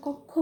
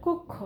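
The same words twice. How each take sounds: First: কক্ষ said with an open অ as kɔkkhɔ, the common mistake; wrong pronunciation. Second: কক্ষ said with a closed o as kokkho; correct pronunciation. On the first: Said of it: "কক্ষ বলি না". (ভুল উচ্চারণে কক্ষ, খোলা অ দিয়ে) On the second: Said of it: "আসলে এটা হবে কক্ষ". (শুদ্ধ উচ্চারণে কক্ষ, সংবৃত ও দিয়ে) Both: Shown as a demonstration.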